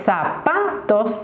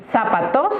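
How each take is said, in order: First: "zapatos" with a drawn-out stressed middle syllable, PA; Betonung auf PA. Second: "Zapatos" stressed on the last syllable, TOS; falsche Endbetonung. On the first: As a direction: lean slowly on the PA in "zapatos". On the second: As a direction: wrongly hit the final syllable of "Zapatos". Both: Shown as a demonstration. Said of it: "acentuando las distintas sílabas".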